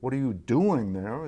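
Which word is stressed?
doing. The stress falls on the word doing. The question is about the activity. "It's about the activity"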